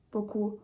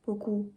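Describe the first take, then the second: No difference in how they are said.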